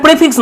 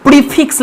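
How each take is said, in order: First: "প্রেফিক্স" with short e; short open e in "প্রেফিক্স"; non-RP pronunciation. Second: "প্রিফিক্স" with i in the first syllable; long ee at the start of "প্রিফিক্স"; RP long vowel. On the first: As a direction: say "প্রেফিক্স" as the rejected form, starting "pre". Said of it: "দেখবে এটা প্রেফিক্স নয়". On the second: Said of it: "long ই হবে". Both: Shown as a demonstration.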